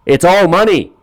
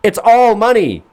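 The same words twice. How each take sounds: First: High, exasperated retort; scoffing at bad money advice; incredulous. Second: Very high, slower, through a laugh; cracking up at the advice; laughing disbelief. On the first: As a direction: throw it back at him up high. Mocking Steve Harvey's advice. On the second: Real, not acted. Laughing repeat.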